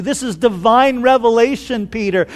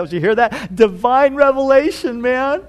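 First: Said in the usual way. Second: Bragging to the others, pitch climbing; playful, self-impressed aside; Peter. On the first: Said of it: "And Jesus said". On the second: Acted. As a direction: show off, drawing out the boast with a rising lilt. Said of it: "I can just see Peter looking the other side".

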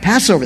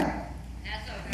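First: Said in the usual way. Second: Whispered prompt. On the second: Shown as a demonstration. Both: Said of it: "feast of what?".

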